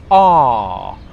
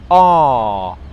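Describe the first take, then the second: First: The vowel is a single long ah sound. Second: The same.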